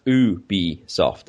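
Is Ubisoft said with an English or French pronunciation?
French. It is pronounced the French way. The speaker calls it right. "It's pronounced Ubisoft in French"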